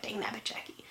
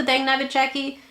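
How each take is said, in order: First: Whispered self-scolding; frustrated whisper. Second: Said in the usual way. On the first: Retold or imitated. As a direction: hiss it under your breath at yourself. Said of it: "when I mess up, I'm like". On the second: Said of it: "did you like the".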